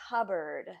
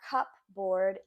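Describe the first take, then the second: First: It is said in a shortened, reduced form. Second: Every part is sounded as it is spelled. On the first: The speaker calls it right. "this is not pronounced how it is spelled" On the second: The speaker calls it wrong. "not cupboard"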